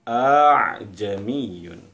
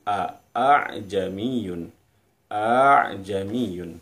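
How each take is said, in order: First: The two hamzas merge into one smooth glide. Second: Both hamzas are pronounced separately and fully. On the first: "dipermudah cara bacanya menjadi a'jamiyun" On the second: "Aslinya dari a'jamiyun a'jamiyun"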